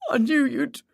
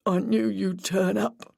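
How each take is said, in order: First: High, breaking off in tears; tearful. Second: Slow, shaky, regaining control; steady yourself but let it shake. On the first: Grieving boyfriend breaking down before the detectives, tearful. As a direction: choke on it and stop. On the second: Grieving boyfriend regaining composure to answer police, shaky voice. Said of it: "in a shaky voice". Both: A narrator's reading.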